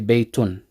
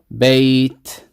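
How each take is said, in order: First: The word ends with an added 'un' sound. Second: The word ends abruptly on a bare 't'. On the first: The reading continues on to the next word. "when continuing, I would say Beitun" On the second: The reader stops on this word. "I read this word with a sukoon"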